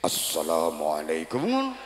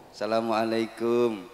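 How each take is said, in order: First: The voice is wavering and exaggerated, like preaching. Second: The voice is plain, like a casual visitor's.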